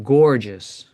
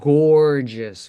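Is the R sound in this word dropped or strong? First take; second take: strong; strong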